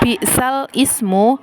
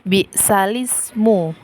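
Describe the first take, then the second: First: Ismu starts with its own vowel, kept separate. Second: The vowel moves onto l, linking the words. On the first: "Di bacaan bi'sal ismu" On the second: "maka bacaannya atau dibaca bi'salismu"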